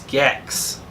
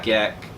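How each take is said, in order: First: The name ends in a ks sound. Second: The name ends in a plain k sound. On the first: The speaker calls it right. "It's Gex" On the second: The speaker calls it wrong. "you're saying it wrong, anyways. It's not Gek"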